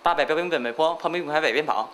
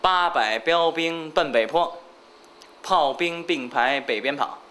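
First: It is said at a faster pace. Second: It is said at a slower pace.

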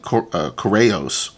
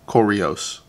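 First: The word does not rhyme with Oreo. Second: The word rhymes with Oreo. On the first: The speaker calls it wrong. "I've been saying Koreos" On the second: The speaker calls it right. "like Oreo, like the cookie"

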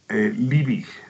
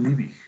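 First: The name is pronounced the Spanish way. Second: The name is pronounced the German way.

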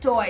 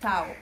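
First: The vowel o comes before a. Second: The vowel a comes before o. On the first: The speaker calls it wrong. "it's not toa" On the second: The speaker calls it right. "it's tau"

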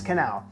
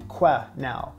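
First: The first syllable starts with a 'ka' sound. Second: The first syllable starts with a 'kweh' sound. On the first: The speaker calls it right. "you don't go que, you go ka. Proper pronunciation is quenelle" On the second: The speaker calls it wrong. "I always hear someone say quenelle"

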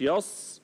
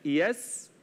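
First: The s sound is heavy, like sad. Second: The s sound is light and thin. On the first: The speaker calls it wrong. "مش يص" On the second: The speaker calls it right. "لا يس"

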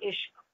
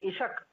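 First: The final two consonants are said as a cluster. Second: An extra vowel separates the final two consonants. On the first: The speaker calls it right. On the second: The speaker calls it wrong.

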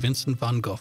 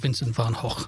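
First: The name has an English-style pronunciation. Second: The name has a Dutch-style pronunciation.

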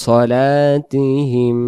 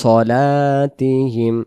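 Both takes have the same delivery.

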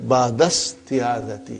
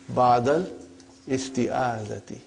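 First: The words run together without the glottal stop. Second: A glottal stop is pronounced before 'isti'. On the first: This is how a fluent or native speaker says it. "If you were to study this from your childhood, or if you are, your mother tongue is Arabic, you have no problem. So it will say" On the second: This is a simpler way to say it while learning. "But for simplicity, I still feel that while we are learning, brother, we can say"

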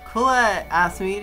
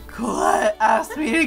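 First: It is said in a natural, unforced voice. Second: It is said in a strained, put-on character voice.

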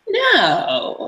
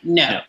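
First: A playful no that invites more. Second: A flat, decisive no that closes off. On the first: Keep going even though I say no. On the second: Stop; this is a real refusal.

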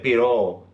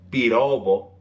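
First: The b sound is softened almost away. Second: The b sound is clearly pronounced. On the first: "he said piro" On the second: "He didn't say pirobo"

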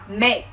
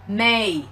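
First: The final k is released with a puff. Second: The final k is dropped entirely. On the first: "em bật âm ca xuống" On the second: "Nếu như mà không có âm ca thì các bạn sẽ đọc là may, sai hoàn toàn nhá"

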